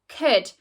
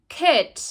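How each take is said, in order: No difference in how they are said.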